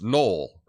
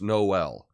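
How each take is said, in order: First: The two vowels merge into one syllable. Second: The two vowels are said as separate syllables. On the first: The speaker calls it wrong. "so we don't say the first Noel" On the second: The speaker calls it right. "So we say the first Noel, and it separates two vowel sounds"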